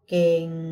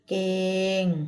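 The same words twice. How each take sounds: First: The word is said on a low tone. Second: The word is said on a level mid tone. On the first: "เสียงเอก" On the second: "เสียงสามั"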